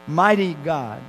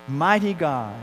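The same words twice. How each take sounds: No difference in how they are said.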